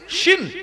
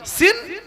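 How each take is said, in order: First: শিন with a hushing sh sound. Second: সিন with a hissing s sound; plain S in সিন. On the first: Teaching the three-dotted letter, শিন with a clear sh. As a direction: say শিন with sh, as in "sheen". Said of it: "আর শিন". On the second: Teaching the letter without dots, সিন with a clear s. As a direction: say সিন with s, as in "seen". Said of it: "সিনের উচ্চারণ সিন". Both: Shown as a demonstration.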